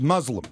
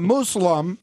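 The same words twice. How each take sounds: First: The first syllable sounds like 'muzz'. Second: The first syllable sounds like 'moose'. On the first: The speaker calls it right. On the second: The speaker calls it wrong.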